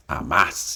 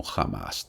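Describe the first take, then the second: First: "Hamas" said "amas" with a silent H; "Hamas" with no H sound, Spanish style. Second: "Hamas" said "jamas" with a rasped H; "Hamas" with the H breathed out as a j sound. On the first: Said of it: "pero se pronuncia como H". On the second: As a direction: say "Hamas" with a throaty H like Spanish j. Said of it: "a veces se pronuncia como Hamas también". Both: Shown as a demonstration.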